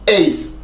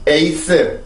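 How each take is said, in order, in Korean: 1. 한 음절로 발음합니다. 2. 세 음절로 나눠서 발음합니다. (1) "영어입니다" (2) "한국어입니다"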